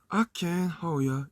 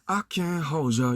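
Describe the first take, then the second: First: The d drops, giving a soft 'yer' sound. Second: The d and y merge into a hard 'j' sound. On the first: The speaker calls it right. "이렇게 가야 되는데" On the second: The speaker calls it wrong. "이래버리면 호저에서 그 듣는 청각적인 어떤 그 심상 자체가 뚝 떨어지잖아요"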